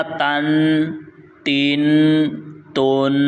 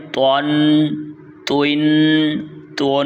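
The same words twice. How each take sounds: First: Said in the usual way. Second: Thick emphatic ط in تون توین تون; heavy, full letter. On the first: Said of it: "ہم نے اس کو پڑھا". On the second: Shown as a demonstration. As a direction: round the t into "to-an, to-in, to-on". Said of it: "موٹا پڑھنا ہے، حروف مستعلیہ".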